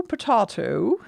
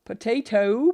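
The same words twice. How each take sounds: First: Potato with an open ah sound, pa-TAH-to; potato said the British way, pa-TAH-to. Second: Potato with a long ay sound, pa-TAY-to; potato said the American way, pa-TAY-to. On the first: Showing viewers the British potato. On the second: Showing viewers the American potato. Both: Shown as a demonstration. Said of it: "let's throw in some difficult words".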